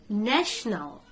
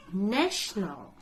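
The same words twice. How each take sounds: The two takes are said the same way.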